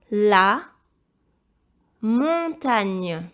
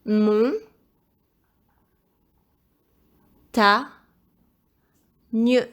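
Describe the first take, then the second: First: Slow, loud, carefully enunciated dictation. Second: Loud, isolated syllables with long pauses; syllable-by-syllable dictation. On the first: Teacher dictating first word to pupil, loud dictation. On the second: Teacher helping pupil spell montagne, syllable-by-syllable dictation. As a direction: break "Mon. Ta. Nieu." into separate beats. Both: Shown as a demonstration.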